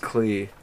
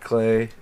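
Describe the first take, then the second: First: The syllable ends in an 'ee' vowel. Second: The syllable ends in an 'ay' vowel. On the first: This is the original, root pronunciation of the name. The speaker calls it right. "if you really want to get down to the roots, it's Clee" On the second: This is the common, everyday pronunciation of the name. The speaker calls it wrong. "not Clay"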